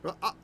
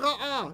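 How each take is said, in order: First: A deep throaty consonant is sounded mid-word. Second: No throaty consonant is sounded mid-word. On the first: This is the older way the ayin was said. "if I want a feminine form ... would be ra'ah, right? You hear it?" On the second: This is the usual modern way, the same for both words. "if we're not pronouncing the ayin or, or the aleph or anything"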